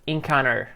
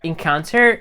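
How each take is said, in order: First: The t sound is dropped after n. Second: The t sound is clearly pronounced. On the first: "she says encounter" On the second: "instead of saying encounter"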